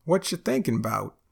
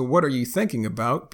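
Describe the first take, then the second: First: "what you thinking about" as whatcha thinkin' 'bout; Texan contraction. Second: Said in the usual way. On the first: Shown as a demonstration.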